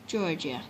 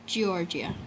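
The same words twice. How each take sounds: The two takes are said the same way.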